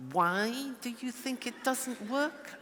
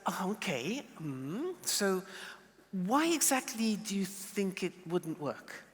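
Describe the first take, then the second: First: Slow, pointed accusing question; the jackal's suspicious way of asking; wrong jackal way. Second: Soft, open, curious asking; the curious chair's gentle question. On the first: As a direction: ask it as a challenge, not curious. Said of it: "Not like that, no, no, no, 'cause that's jackal". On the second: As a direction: ask gently, really wanting to know. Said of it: "It's like". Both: Shown as a demonstration.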